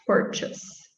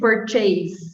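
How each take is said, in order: First: The second syllable has a weak, reduced vowel. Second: The second syllable sounds like the word chase. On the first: The speaker calls it right. "I guess it the schwa sound" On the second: The speaker calls it wrong. "Maybe they would try to say purchase"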